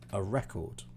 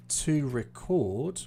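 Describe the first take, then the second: First: A record said REC-ord, falling away softly; stress on first syllable. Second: To record said re-CORD, drawn out slowly; stress on second syllable. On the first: Teacher contrasting noun and verb, stressing the start of record. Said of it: "this is where the stress is". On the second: Teacher contrasting verb and noun, stressing the end of record. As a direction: punch the end of record with a swooping rise. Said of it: "I put more stress here". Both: Shown as a demonstration.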